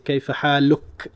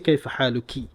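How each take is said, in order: First: The phrase ends on the k without a vowel. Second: The phrase ends with an added final i vowel. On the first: The speaker calls it right. "You'd say kayfa haluk" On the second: The speaker calls it wrong. "You will not say kayfa haluki"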